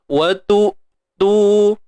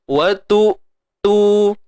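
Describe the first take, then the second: No difference in how they are said.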